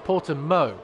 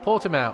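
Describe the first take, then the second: First: The name is said with a Portuguese pronunciation. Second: The name is said with an English pronunciation. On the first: The speaker calls it right. "as the Portuguese apparently pronounce it" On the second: The speaker calls it wrong. "we've been pronouncing it wrong this entire time"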